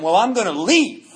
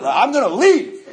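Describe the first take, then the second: First: A mildly raised, half-laughing threat to leave; first defiant threat to the concierge, mildly raised. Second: Higher, louder and slower, half laughing; storming out threat to the concierge, loud and slow; raised voice. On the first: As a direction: push back a little louder, daring him. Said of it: "you just raise your voice". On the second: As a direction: raise your voice and hope it works. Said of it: "you just raise your voice and hope it works out". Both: Retold or imitated.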